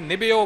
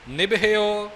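First: The h merges into the b as bh. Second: The h is pronounced fully as its own sound. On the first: The speaker calls it wrong. "ਆਮ ਤੌਰ 'ਤੇ ਪਾਠੀ ਨਿਭਿਓ ਬੋਲ ਜਾਂਦੇ ਨੇ" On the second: The speaker calls it right. "ਹਾਹੇ ਦਾ ਪੂਰਨ ਉਚਾਰਨ ਕਰਦਿਆਂ ਹੋਇਆਂ ਬੋਲਣਾ ਹੈ"

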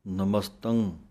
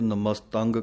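First: The word ends in a nasal hum. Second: The word ends in a hard g sound. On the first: The speaker calls it right. "ਨੱਕ ਦੇ ਵਿੱਚ ਆਵਾਜ਼ ਬੋਲਣੀ ਹੈ" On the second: The speaker calls it wrong. "ਬਹੁਤੇ ਨਮਸਤੰਗ ਕਹਿ ਜਾਂਦੇ ਹਨ, ਗੱਗਾ ਲਾ ਦਿੰਦੇ ਹਨ ਮਗਰ"

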